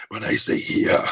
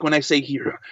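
First: Growly villain with an Austrian-accented "here"; raspy T-Rex voice, "here" ending in an open "ah"; Arnold Schwarzenegger. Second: Said in the usual way. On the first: Shown as a demonstration. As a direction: rasp it low, turning "here" into "hee-ah". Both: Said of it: "like, Arnold Schwarzenegger".

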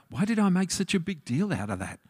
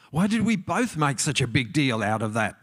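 First: "I" lifted, the whole question pitched higher, "Why did I make such a big deal out of that?"; stress on I. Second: "we" and "both" pressed, in the voice's usual pitch; stress on WE. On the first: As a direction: lean on "I", as a self-blaming afterthought. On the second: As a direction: shift the weight onto "we both", shared blame. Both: Retold or imitated. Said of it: "you later go".

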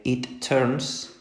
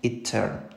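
First: "it turns" with the r, n and s all sounded; full final RNS. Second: "it turn" stopping at the r and n, no s; dropped final S. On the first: Teacher modelling the correct form for students, all of "turns" sounded. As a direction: land every consonant in "turns". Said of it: "pronunciemos esa R N S". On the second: Teacher showing students the wrong way, no s on "turn". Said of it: "y no digamos". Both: Shown as a demonstration.

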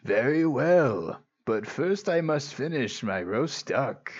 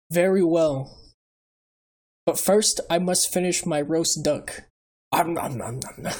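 First: Put-on wise old sage. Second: Lightly voiced wise old uncle; a hint of calm old sage; Iroh impression. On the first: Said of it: "sounded like a wise old man thing". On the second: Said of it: "Is that Iroh?".

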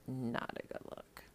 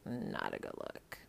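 First: Unvoiced whisper, softer; faint whispered echo; whisper again. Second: Unvoiced whisper, much lower; breathy whispered repeat. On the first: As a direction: hush it out once more. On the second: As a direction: whisper the judgment. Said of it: "just not a good look". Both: Shown as a demonstration.

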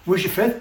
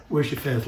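First: Higher, rising call over the wind; Jesus asking over a storm, higher and rising. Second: Churchy calm. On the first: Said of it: "He's in the middle of a storm". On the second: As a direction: say it calmly like from a pulpit. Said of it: "he didn't say ... like he's in a church". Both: Shown as a demonstration.

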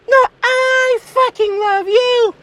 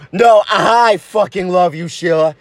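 First: Very high, drawn-out gushing; out-love your partner in a slow high squeal; cartoonish swooning insistence; insistent girlfriend. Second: Low-voiced, insistent lover; earnest low declaration; insistent boyfriend. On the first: Girlfriend outdoes his declaration. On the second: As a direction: outdo your sweetheart's declaration, keeping it low. Lovers outdo each other's declarations.

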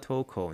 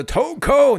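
First: "Toko" said low and soft, with no power; weak call. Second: "Toko" shouted high and loud, a falling call; loud strong call. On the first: Showing viewers the wrong, powerless way, "Toko" mumbled. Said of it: "你不能叫". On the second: Showing viewers how to call a player's name, "Toko" shouted. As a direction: belt out "Toko" with power across the room. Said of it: "你要发出这种声音". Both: Shown as a demonstration.

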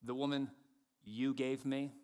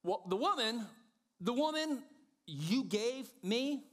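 First: Adam blaming God. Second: High, incredulous blame, drawn out at the end; Adam passing the blame. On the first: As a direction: keep it contained and pointed. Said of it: "and then he goes further". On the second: Adam blames the woman to God, high and indignant. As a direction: raise the pitch sharply and stretch the accusation. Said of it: "Adam goes first". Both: Acted.

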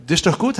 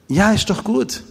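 First: Bright, encouraging rise on gut; upbeat approval. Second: Much higher, insisting it really is good; emphatic reassurance. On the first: Speaker answering the angry biker, upbeat approval. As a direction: tell him it's fine, rising at the end. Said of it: "hab ich gesagt". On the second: Speaker insisting to the puzzled biker, high reassurance. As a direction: reassure him again, higher and firmer. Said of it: "Ja, wie?". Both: Retold or imitated.

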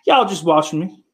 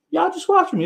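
First: Higher-pitched mock remark; raised pitch. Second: Very high, teasing falsetto; squeaky mock voice. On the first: Streamer teasing his viewers, higher-pitched. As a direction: lift the pitch on the line. Repeats the line, pitch climbing. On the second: Streamer teasing his viewers, very high mock voice. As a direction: push it up into a squeak.

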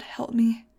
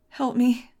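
First: Breathy whispered prayer, barely voiced; whispered plea. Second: Pleading cry, higher and louder; cry for help. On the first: Girl begging God over her dying love, in a whisper. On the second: Acted. Girl begging God over her dying love, crying out. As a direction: let the plea break out loud. Desperate prayer over lost Fang.

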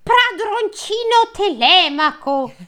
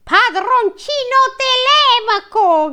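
First: High, slow, joyful calling out; joyful cry. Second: Very high, slow, hammed-up joyful call; joyful cry. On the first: Servant joyfully greeting young master, high slow cry. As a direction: call him out with delight. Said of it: "gridò gioiosamente". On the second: Eumeo greeting Telemaco, high slow joyful cry. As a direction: cry out the young master's name with glee. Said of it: "gridò gioiosamente Eumeo". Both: A narrator's reading.

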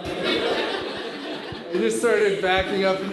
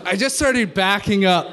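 First: Drawn out through laughter; slow, laughing. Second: Said in the usual way. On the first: Real, not acted. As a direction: stretch it slowly while laughing.

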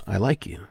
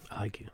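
First: Said in the usual way. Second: Very soft I like you; hushed inflection. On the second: Shown as a demonstration. Showing the energy in I like you, very softly. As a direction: drop it right down, almost under the breath. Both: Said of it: "You can feel the energy".

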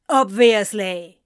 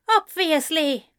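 First: Loud spat word. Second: Higher, louder bitter echo; glaring echo. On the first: Anthony spitting the word back at Ezra, loud. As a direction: spit it over the shoulder. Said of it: "Anthony spat over his shoulder". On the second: Ezra echoing Anthony bitterly, higher. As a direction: throw the same word back. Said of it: "Ezra glared". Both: A narrator's reading.

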